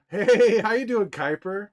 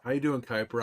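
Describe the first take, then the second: First: Excited hello. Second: Said in the usual way. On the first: Real, not acted. Greeting a chat viewer warmly.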